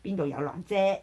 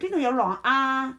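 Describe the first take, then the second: First: It sounds like a dismissive denial, not asking. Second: It sounds like a genuine question about where.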